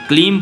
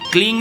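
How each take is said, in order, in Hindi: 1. यह अक्षर m ध्वनि पर समाप्त होता है। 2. यह अक्षर ng ध्वनि पर समाप्त होता है। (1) "क्लीम बोलेंगे" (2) "क्लींग नहीं बोलेंगे"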